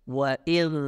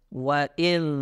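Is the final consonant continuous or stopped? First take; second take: continuous; continuous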